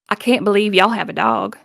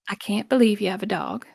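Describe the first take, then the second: First: It has a heavy, deep Southern accent. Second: It has a soft Southern accent.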